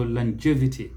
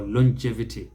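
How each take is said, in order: First: Longevity as lan-JEV-ity, stress on JEV; American pronunciation. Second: Longevity as lon-JEV-ity, stress on JEV; rounded first vowel, punch JEV in longevity; British pronunciation. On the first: Teacher recaps both versions, American pronunciation first. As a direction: open first vowel, punch JEV in longevity. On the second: Teacher recaps both versions, British pronunciation second. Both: Shown as a demonstration. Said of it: "second syllable is the one that receives stress".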